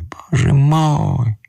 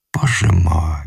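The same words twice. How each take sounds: First: Slow, high anguished wail; high drawn-out lament; drawn-out cry. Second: Said in the usual way. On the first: Acted. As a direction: stretch out the despair. Distressed man exclaims twice.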